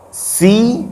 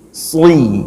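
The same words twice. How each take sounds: First: "Si" with a light, front s; thin sin. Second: "sli" as a heavy sad with i, like "swi"; thick sad. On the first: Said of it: "kalau sin tipis". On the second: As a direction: thicken the s of "sli" from the tongue's back. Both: Shown as a demonstration.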